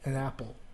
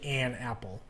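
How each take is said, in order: First: The word 'an' is reduced and unstressed. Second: The word 'an' is fully stressed. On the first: "you say it n" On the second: "if you want to emphasize it"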